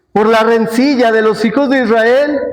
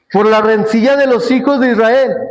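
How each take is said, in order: Both takes have the same delivery.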